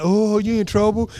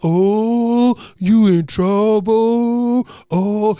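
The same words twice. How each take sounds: First: Quicker, milder mock class taunt; taunting classmates. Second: Long drawn-out, loud class chorus; taunting classmates. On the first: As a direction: toss off the kids' teasing chant briefly. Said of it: "It's like". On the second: Retold or imitated. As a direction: stretch it out like a whole class teasing. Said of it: "everyone's like".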